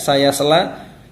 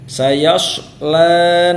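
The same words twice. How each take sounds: First: The s-sound is a plain thin s. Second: The s-sound is heavy and thick. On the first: The speaker calls it wrong. "jangan sampai terbaca seperti huruf sin" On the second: The speaker calls it right. "Sayasla shad ya. Dia tafkhim"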